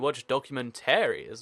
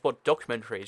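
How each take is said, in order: First: The word is pronounced in a fancy way. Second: The word is pronounced in an ordinary way. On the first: "I'd like to pronounce it fancy" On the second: "you don't just watch documentaries"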